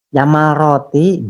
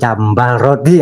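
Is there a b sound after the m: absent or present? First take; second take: absent; present. First: No b sound is heard after the m. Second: A b sound is heard after the m. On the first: The speaker calls it wrong. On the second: The speaker calls it right.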